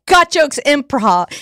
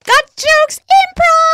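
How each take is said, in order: First: Said in the usual way. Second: High loud slow announcer yell; announcer shout. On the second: Shown as a demonstration. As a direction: boom it like a ring announcer.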